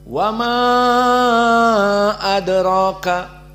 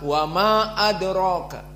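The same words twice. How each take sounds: First: The vowel in 'ma' is held very long. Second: The vowel in 'ma' is held short. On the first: "al-isba seperti Wars dan Hamzah ... panjang" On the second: "qasr, hanya dibaca"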